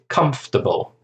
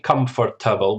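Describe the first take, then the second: First: Only three syllables are pronounced. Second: All four syllables are pronounced. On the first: The speaker calls it right. "We say comfortable. So it's like three syllables" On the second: The speaker calls it wrong. "We don't pronounce all the syllable. It's we don't say comfortable"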